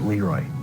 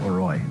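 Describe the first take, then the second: First: The stress falls on the second syllable. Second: The stress falls on the first syllable. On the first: This is how the local towns say the name. "pronounce it Leroy ... it rhymes better with destroy" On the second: This is how people elsewhere say the name. "and not Leroy"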